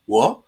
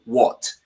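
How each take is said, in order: First: "What?" as a short rising question; imitated startled dog. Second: Said in the usual way. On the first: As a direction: turn round with a mock-puzzled "What?". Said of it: "a dog that turns around and goes". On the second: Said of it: "type in".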